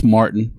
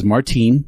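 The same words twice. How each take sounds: First: "Martin" said the plain American way, stressed on the first syllable; American pronunciation. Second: "Martine" with a long ee, stressed on the second syllable; German pronunciation. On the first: Translating the name for Texans and Americans, "Martin" said the American way. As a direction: say "Martin" with a short, unstressed ending. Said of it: "for us Texans and Americans".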